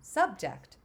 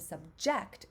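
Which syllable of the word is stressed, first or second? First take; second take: first; second. First: The stress is on the first syllable. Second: The stress is on the second syllable. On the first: It is the noun. "it's in the first syllable" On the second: It is the verb. "it's in that second syllable"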